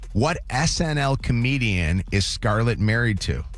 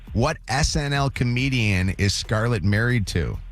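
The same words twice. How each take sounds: No difference in how they are said.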